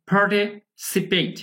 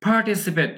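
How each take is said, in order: First: "Participate" slowly split, parti ... sipet, with an e sound; pronunciation demo. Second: Said in the usual way. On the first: Shown as a demonstration. Teacher shows students the e-like vowel, slow split pronunciation demo. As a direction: break "Participate" in two slow parts to show the e vowel. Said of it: "এখানে কিছুটা একারের মতো হবে". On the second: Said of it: "এটা উচ্চারণে কিন্তু".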